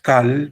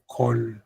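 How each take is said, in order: First: "kal" said with an open ah; wrong vowel, ah. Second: "kol" said with a round O; correct O vowel. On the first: Teacher showing students the misreading, open ah in kal. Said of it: "Not kal". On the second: Teacher correcting the reading for students, O in kol. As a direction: say "kol" with an O in place of ah. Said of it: "but kol". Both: Shown as a demonstration.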